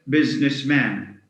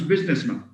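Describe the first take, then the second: First: The last syllable has a full 'a' vowel. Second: The last syllable has a reduced schwa vowel. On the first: The speaker calls it wrong. "we don't get businessman. This is a common a common you know mispronunciation" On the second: The speaker calls it right. "it becomes businessman with a schwa"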